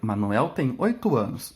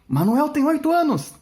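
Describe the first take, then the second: First: It is said as a calm, plain statement. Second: It is said with excitement and energy.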